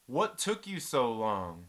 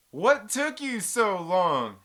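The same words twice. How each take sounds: First: Slow, drawn-out mock question; drawn-out taunt. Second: Very slow, loud, higher-pitched taunt. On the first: Taunting the telemarketer who finally hung up, drawn out. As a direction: stretch it out at an even volume. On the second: Retold or imitated. Taunting the telemarketer who finally hung up, loud and drawn out. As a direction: belt it out, stretching every word. Same taunt repeated, much louder.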